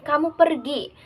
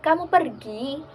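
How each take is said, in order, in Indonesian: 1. Nada tetap datar atau turun di akhir. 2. Nada naik di akhir. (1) "bermakna sebuah pernyataan objektif" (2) "intonasinya dinaikkan"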